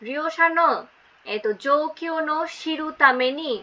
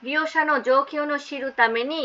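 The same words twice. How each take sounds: First: Slow, careful Japanese reading; slow model reading. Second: Said in the usual way. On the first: Shown as a demonstration. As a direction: read it out slowly for the students. (ধীরে জাপানি পাঠ) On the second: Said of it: "বলছে রিওশানো জোকিও শিরু তামেনি".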